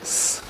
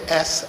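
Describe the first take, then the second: First: Only a long hissing sound is made. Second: A vowel sound comes before the hiss. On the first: The speaker calls it right. "So I should simply say S, like a snake" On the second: The speaker calls it wrong. "I shouldn't say S. S has A at the beginning, which is a vowel"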